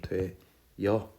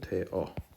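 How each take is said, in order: First: A y-glide is added before the final vowel. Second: The two vowels meet with no glide between them.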